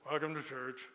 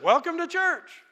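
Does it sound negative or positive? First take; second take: negative; positive. First: It sounds cold and negative. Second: It sounds warm and positive.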